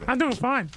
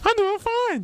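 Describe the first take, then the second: First: It is said in his own natural voice. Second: It is said in a put-on Mickey Mouse voice.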